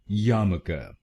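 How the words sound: It is said in an American accent.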